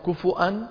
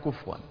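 First: A glottal stop follows the vowel after f. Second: The f has no vowel before w. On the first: "فمن العرب من يهمزها فيقول كفؤا" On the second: "ومنهم من يسكن الفاء فيقول كفوا"

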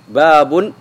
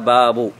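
First: The word ends with an added n sound. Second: The word ends without an added n sound. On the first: The following words start a new independent sentence. "وإذا نونت باب" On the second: The word is bound to the following noun as its possessor. "فإذا قلت باب فيكون باب خبر لمبتدأ محذوف"

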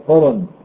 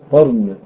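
First: The r is followed by an a vowel. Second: The r has no vowel after it. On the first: The speaker calls it wrong. "بفتح الراء يبقى قرن، لكن ده غلط" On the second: The speaker calls it right. "بفتح القاف فسكون الراء بعدها نون"

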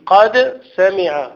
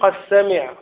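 First: The d sound is pronounced clearly before s. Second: The d sound merges into the following s. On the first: The speaker calls it right. "لا تضغم" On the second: The speaker calls it wrong. "ما تقولش قد سمع"

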